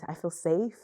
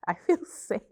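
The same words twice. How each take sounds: First: Said in the usual way. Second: Laughing it out, a bit louder; relieved laugh into feel safe. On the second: Real, not acted.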